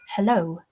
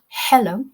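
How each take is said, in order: First: The stress is on the second syllable. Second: The stress is on the first syllable. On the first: The speaker calls it right. "the second syllable is stressed" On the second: The speaker calls it wrong. "It's not hello"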